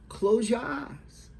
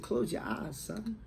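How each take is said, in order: First: High, slow, louder instruction; retold motherly command. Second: Mild motherly coaxing, easing off at the end; gentler repeated instruction. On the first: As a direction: slowly raise the voice as a mother directing her son. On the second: Retold or imitated. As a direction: repeat it lightly, lifting softly on the last word. Mother repeats it after "What?.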